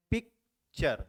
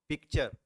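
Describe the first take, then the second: First: picture broken in two, पिक, pause, चर; split into syllables. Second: Said in the usual way. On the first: Shown as a demonstration. Teacher showing how picture divides, picture in two parts. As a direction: say picture as two separate beats with a gap after पिक. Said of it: "यानी इसे दो में किया हमने". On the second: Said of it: "इसे एक बार में pronounce कैसे करते हैं".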